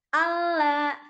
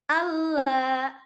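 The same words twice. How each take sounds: No difference in how they are said.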